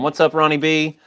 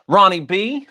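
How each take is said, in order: First: Said in the usual way. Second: Calling the name out loud and high; yelling. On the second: Real, not acted. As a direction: shout the name into the mic. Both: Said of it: "Sorry, yelling into the microphone".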